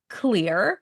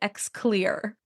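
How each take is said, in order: First: The name starts directly with a 'k' sound. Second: The name starts with an audible 'eks' sound. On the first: The speaker calls it right. "It's pronounced Clear" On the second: The speaker calls it wrong. "I always used to pronounce it X Clear"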